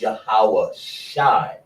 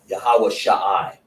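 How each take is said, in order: First: The ending is one syllable, shai, with no ah. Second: The ending is two separate syllables, shah then i. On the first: The speaker calls it right. "It's Yahweh Shai" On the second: The speaker calls it wrong. "you don't want to say Yahweh Shah I, That don't sound right because it's not right"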